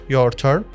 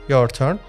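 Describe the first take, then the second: Both takes have the same delivery.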